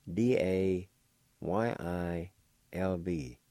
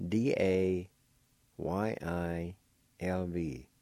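Both takes have the same delivery.

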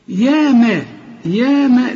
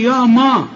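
First: "يا ما" with thin, fronted a, pitched up; light vowels. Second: "يا ما" with dark, backed a; mistaken heavy vowels. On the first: Shown as a demonstration. Teacher modelling the fix for a student, light vowels. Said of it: "زي ما تقول يا ما". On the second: Retold or imitated. Teacher imitating the student's error, heavy vowels. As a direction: imitate a thickened "يا ما". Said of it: "خطأ".

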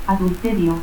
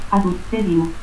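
First: Said in the usual way. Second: Adulterio as "adutterio". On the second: Shown as a demonstration. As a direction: cut the L of Adulterio to a stop. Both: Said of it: "confusión de L y T al final de sílaba".

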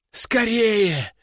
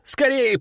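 First: Urgent cry. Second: High hurried cry; urgent shout. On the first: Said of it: "не унимался окровавленный послушник". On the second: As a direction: urge them on, high. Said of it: "закричал тот". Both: A narrator's reading.

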